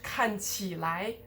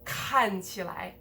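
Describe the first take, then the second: First: The syllables after 看 are stressed. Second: The syllables after 看 are unstressed. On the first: The speaker calls it wrong. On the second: The speaker calls it right. "also de-stressed"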